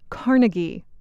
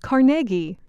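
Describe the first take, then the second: First: The stress is not on the middle syllable. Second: The stress is on the middle syllable. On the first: The speaker calls it wrong. "not Carnegie" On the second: The speaker calls it right. "It is Carnegie, The stress is on the middle syllable"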